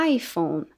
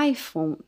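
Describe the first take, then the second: Both takes have the same delivery.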